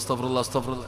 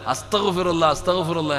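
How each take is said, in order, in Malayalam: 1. ഈ വാക്യം വേഗത്തിൽ, യന്ത്രം പോലെ പറയുന്നു. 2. ഈ വാക്യം പതുക്കെ, നന്നായി ആലോചിച്ച് പറയുന്നു. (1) "ചില ഉമ്മ കയ്യിൽ ഇങ്ങനെ തസ്ബീഹ് കയറ്റിയിട്ടുണ്ട്" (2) "പറയേണ്ട പോലെ"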